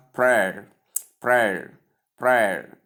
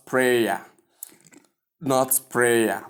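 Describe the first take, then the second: First: "prayer" as one syllable ending in "air"; "prayer" rhyming with "air", one beat; correct prayer. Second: "prayer" as "pray-ya"; "prayer" broken into "pray" plus "a"; wrong prayer, two syllables. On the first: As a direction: say "prayer" like "prair". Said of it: "the diphthong air". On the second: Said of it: "as most people call it". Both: Shown as a demonstration.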